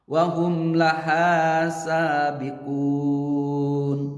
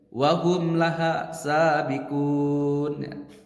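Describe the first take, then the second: First: The vowel in laha is held for two beats. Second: The vowel in laha is cut short by speed. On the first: The speaker calls it right. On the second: The speaker calls it wrong.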